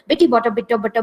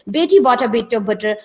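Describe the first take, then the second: First: It is said fast. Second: It is said slowly.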